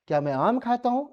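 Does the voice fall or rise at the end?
rises. The voice rises at the end like a question. It is heard as a real question. The speaker calls it right. "बताओ तो"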